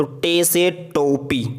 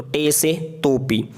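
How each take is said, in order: First: टे से टोपी, each word drawn out slowly; slow demo. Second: Said in the usual way. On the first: Shown as a demonstration. Teacher to beginners: a slow, drawn-out reading of टे से टोपी. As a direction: spell out टे से टोपी deliberately for learners. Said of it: "ये ते है और ये टे". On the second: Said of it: "टे, ये बे की तरह".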